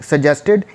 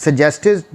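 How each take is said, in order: Both takes have the same delivery.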